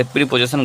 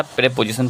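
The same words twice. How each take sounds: First: प्रीपोजिशन opening on a "pree" sound; mispronounced preposition. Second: प्रीपोजिशन with first syllable as "pray"; corrected pronunciation. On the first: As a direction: show the faulty प्रीपोजिशन, first vowel as "ee". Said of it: "प्रीपोजिशन गलत हो जाता है हमारा". (प्रीपोजिशन में "प्री" वाला गलत उच्चारण) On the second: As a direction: model प्रीपोजिशन as "pre-position", e not ee. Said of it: "प्रीपोजिशन पढ़ेंगे इसको हम". (प्रीपोजिशन, "प्री" की जगह "प्रे" से शुरू) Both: Shown as a demonstration.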